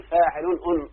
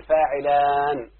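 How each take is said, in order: First: فاعل أن said as faa'ilun-un, the ending doubled; unsayable double nun. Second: فاعلان with a long, drawn-out aan; alif before nun. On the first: Teacher showing students what cannot be said, doubled ending. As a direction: repeat the un at the end of فاعل أن as a separate syllable. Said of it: "ما ينفعش تقول". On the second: Teacher giving students the corrected foot, lengthened ending. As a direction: slowly hold the last alif of فاعلان, then close on n. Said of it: "فنقلب النون الأولى ألف". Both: Shown as a demonstration.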